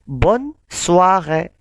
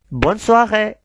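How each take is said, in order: First: The phrase is said at a slower pace. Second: The phrase is said at a faster pace.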